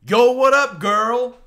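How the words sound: It is said with a strongly inflected accent.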